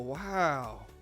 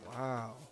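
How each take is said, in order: First: It sounds less disappointed than intended. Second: It sounds disappointed and let down.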